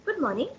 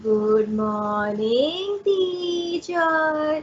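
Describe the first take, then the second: First: Said in the usual way. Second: Drawn-out schoolroom chant; sung, stretch each syllable in a rising sing-song. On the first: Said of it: "that's a different tone". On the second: Shown as a demonstration. Sung, pupils greeting their teacher in childhood, sing-song. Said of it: "that's a sing song tone".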